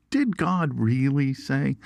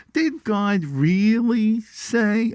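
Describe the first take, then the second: First: Said in the usual way. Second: Put-on high, drawn-out Brooklyn Jewish accent; put-on Brooklyn Jewish accent, pitched way up and very slow. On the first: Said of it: "The serpent opens with a question". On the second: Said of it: "said it with that Brooklyn Jew accent".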